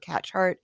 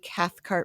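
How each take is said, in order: First: The middle is said as a ch sound. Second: The middle is said as th followed by k. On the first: The speaker calls it wrong. "or Catchart" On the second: The speaker calls it right. "I'm enunciating that"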